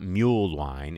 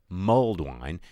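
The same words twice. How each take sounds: First: The first word sounds like 'mule', no d. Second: The first word ends with a clear 'lld' sound. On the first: The speaker calls it wrong. "it's not" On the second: The speaker calls it right.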